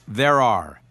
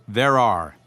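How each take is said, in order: Both takes have the same delivery.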